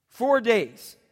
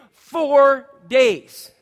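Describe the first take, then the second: First: Said in the usual way. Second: Four days called out high and loud; big preacher's exclamation; emphatic shout. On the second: Acted. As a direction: punch out four days, louder and higher. Preacher stresses duration.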